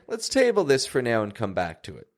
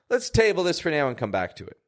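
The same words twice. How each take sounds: First: Relaxed and unhurried, with stretched-out vowels. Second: Quick and sharp, with short vowels. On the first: Let's gather more information and return to the discussion. "It's a little more casual" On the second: I'm out of patience and want to drop it. "I sped up my words. There is a bit of a sharper tone"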